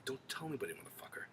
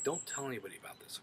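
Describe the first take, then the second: First: Hushed whisper, mock secrecy; secret whisper. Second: Said in the usual way. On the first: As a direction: whisper it like a warning nobody must hear. Daenerys swears Jon to secrecy.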